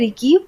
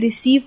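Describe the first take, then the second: First: The second syllable starts with a k sound. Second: The second syllable starts with an s sound. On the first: The speaker calls it wrong. "हमने रिकीव नहीं पढ़ा" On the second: The speaker calls it right. "हमने रिसीव पढ़ा"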